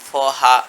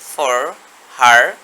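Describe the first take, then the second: First: The r at the end is dropped. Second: The r at the end is pronounced. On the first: "আমরা শুধু বলবো" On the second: "আমেরিকানরা এখানে বলবে ফর হার"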